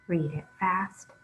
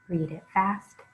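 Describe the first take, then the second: The two takes are said the same way.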